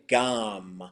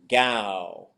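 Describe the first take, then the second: First: The word ends with an M sound. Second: The word ends with a plain W sound. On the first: "with the M sound" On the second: "with the W sound"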